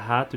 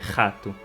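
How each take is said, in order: First: The r is the usual Portuguese r sound. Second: The r is a rasping sound from the throat. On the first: "ao invés de falar rato" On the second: "onde as pessoas dizem é, desse jeito a letra R"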